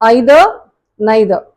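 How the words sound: The words begin with an 'eye' vowel. "யூகேல British pronunciation"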